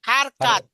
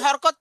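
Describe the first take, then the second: First: The word is said in three full syllables. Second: The word is squeezed into two syllables. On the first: The speaker calls it right. "কি পড়াইছি? হারকাত।" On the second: The speaker calls it wrong. "আমি তো হরকত পড়াই নাই"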